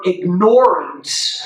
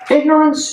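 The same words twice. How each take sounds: First: Said so that 'ignore' is clearly heard inside it. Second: Said the usual way; 'ignore' does not stand out. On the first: The word carries its full meaning of ignoring. The speaker calls it right. "they fully hear the word ignore in there when you say it that way" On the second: The word loses its force. The speaker calls it wrong. "it loses its its its punch. It loses its power"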